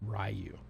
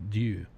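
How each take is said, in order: First: The name begins with an English R sound. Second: The name begins with a D-like sound. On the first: The speaker calls it wrong. "all us Gaijin pronounce it Ryu" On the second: The speaker calls it right. "R's are D sounds pretty much"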